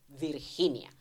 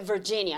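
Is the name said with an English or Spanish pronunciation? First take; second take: Spanish; English. First: The name is said the Spanish way. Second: The name is said the English way.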